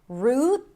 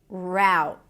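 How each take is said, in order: First: The vowel is a tense 'oo' sound. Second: The vowel is an 'ow' sound. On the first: "an R sound, then the tense oo" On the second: "Ow as a now"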